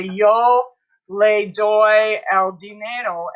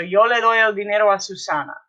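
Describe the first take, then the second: First: Slow, spaced-out words; deliberate word-by-word teacher delivery; slow modelling. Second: Quick, connected Spanish sentence; brisk full-sentence read-through; run together. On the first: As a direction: give each Spanish word its own beat. Teacher builds Spanish sentence word by word. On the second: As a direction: say it all in one fast flow. Whole sentence run together after slow take. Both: Shown as a demonstration.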